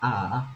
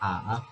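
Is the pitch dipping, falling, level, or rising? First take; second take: dipping; dipping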